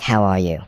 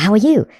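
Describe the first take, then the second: First: "How are you?" dropped low and falling like an order; command tonality. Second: Pitched-up questioning "How are you?"; upward question tone. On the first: Teacher demos a question in command tonality. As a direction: say it as a flat-out command, down at the end. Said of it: "it would sound like". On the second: Teacher shows the usual question rise first. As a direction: lift the end like a normal question. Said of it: "So instead of". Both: Shown as a demonstration.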